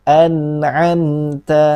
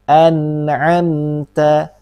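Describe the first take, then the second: The two takes are said the same way.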